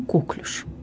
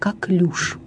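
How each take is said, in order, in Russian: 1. Ударение на первом слоге. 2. Ударение на последнем слоге. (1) "не «коклюш»" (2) "единственно правильной признается форма «коклюш»"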